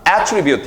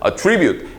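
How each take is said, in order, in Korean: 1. 강세는 첫 번째 음절에 있어요. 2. 강세는 두 번째 음절에 있어요. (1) "발음 좀 잘못했어요" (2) "액센트가 뒤로 오거든요. 동사로 쓸 때는"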